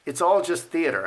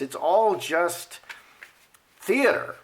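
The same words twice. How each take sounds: First: Said in the usual way. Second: Slow "It's all just", long pause, then "theater" up high; dramatic pause before theater. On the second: Shown as a demonstration. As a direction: hold the beat, then lift "theater" much higher.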